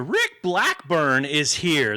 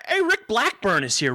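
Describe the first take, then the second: First: Slow drawn out. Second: Excited greeting. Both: Real, not acted. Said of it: "That is fantastic, Rick".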